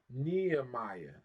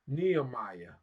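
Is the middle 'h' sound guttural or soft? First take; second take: soft; soft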